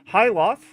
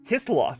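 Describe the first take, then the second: First: The name is said as 'Hyloth', without 'th'. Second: The name is said as 'Hithloth', with 'th'. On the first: The speaker calls it wrong. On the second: The speaker calls it right.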